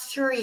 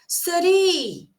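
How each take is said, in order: First: It is said with a neutral accent. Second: It is said with an Indian accent. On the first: "ele não vai falar three" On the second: "O indiano, ... ele vai falar three"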